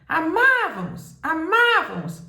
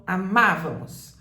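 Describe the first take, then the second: First: Chamado alto e agudo, A tônico esticado; grito para longe. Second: Said in the usual way. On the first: Shown as a demonstration. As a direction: grite como quem chama alguém distante. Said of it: "Vamos supor que você grite lá longe". (gritando para longe) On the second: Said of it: "Vamos supor que você grite".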